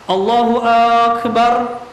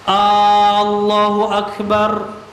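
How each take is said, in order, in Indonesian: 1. Vokal pembuka pada Akbar dipanjangkan. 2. Vokal pembuka pada Allahu dipanjangkan. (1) "dipanjangkan huruf hamzah di akbarnya" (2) "A-nya dipanjangkan"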